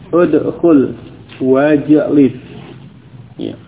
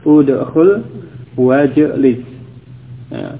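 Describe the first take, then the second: No difference in how they are said.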